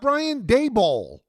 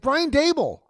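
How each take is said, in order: First: The surname ends in a full 'ball' sound. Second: The surname ends in a weak 'bull' sound. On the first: The speaker calls it wrong. "Not Dayball" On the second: The speaker calls it right. "Dable rhymes with table"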